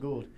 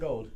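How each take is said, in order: First: The vowel sounds like the 'oo' in goo. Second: The vowel sounds like the 'oa' in goal. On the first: The speaker calls it right. "I always want to mess up Gould" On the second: The speaker calls it wrong. "It's not gold"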